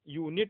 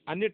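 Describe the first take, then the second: First: The word starts with a 'yoo' sound. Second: The word starts with an 'uh' sound. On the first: The speaker calls it right. "यू पढ़ा जाएगा" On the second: The speaker calls it wrong. "अनिट नहीं भैया"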